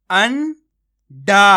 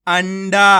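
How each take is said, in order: First: अंडा stretched with a rising end; teacher's slow rising अंडा; drawn-out reading. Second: Said in the usual way. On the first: Shown as a demonstration. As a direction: sound out अंडा slowly, voice rising. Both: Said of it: "आपको मेरा तरीका देखना है".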